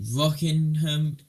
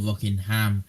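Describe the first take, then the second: First: It is said in a British accent. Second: It is said in an American accent.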